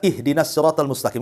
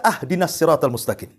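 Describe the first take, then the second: First: The first word begins with an 'i' vowel. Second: The first word begins with an 'a' vowel. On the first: It asks God for guidance. The speaker calls it right. "Harusnya di kasroh" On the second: It asks God for a gift. The speaker calls it wrong. "kita fathah pula tuh"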